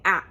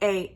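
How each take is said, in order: First: The vowel is a short, clipped sound. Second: The vowel sounds like the letter's name. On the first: The speaker calls it wrong. "instead of saying A" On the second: The speaker calls it right. "you say actually the name of the, the letter"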